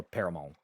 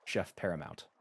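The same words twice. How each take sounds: First: "Paramount" said French-style, ending in a nasal vowel without the final t; "Paramount" Frenchified as "para-MON"; French pronunciation. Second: Said in the usual way. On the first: Shown as a demonstration. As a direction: make the end of "Paramount" French, dropping the "nt". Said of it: "'cause it's French, kind of". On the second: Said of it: "'cause it's French".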